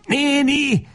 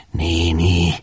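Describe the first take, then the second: First: Very high, desperate call; frantic cry. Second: Subdued, unraised appeal; trembling plea. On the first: Lajos beside himself at the closed door, frantic cry. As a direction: cry out beside yourself, pitch soaring. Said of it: "kiáltja magán kívül". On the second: Lajos pleading with the woman, trembling voice. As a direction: say it as a faltering, restrained plea. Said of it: "remeg Lajos hangja". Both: A narrator's reading.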